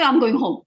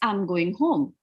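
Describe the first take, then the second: First: The voice rises on the last word. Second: The voice falls slightly on the last word. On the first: The speaker calls it wrong. "You won't say" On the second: The speaker calls it right. "you're slightly deflecting your sound to go down"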